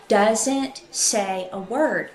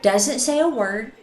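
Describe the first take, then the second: First: "Doesn't say a word" drawn out slowly, each word weighted; slow emphatic. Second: Said in the usual way. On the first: A narrator's reading. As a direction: linger on "Doesn't say a word" for creepy effect.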